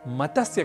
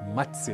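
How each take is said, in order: First: A vowel breaks up the joined consonants. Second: The joined consonants are said without a vowel. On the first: The speaker calls it wrong. "इसलिए मत्स्य कहना तो अशुद्ध है" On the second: The speaker calls it right. "हमें इसका उच्चारण करना चाहिए मत्स्य"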